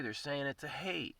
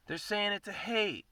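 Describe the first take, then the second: First: Said in the usual way. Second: Much higher, punching hate; emphatic repeat. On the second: Shown as a demonstration. Calling out haters, repeating it higher with weight on hate. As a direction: say it again higher, leaning on hate.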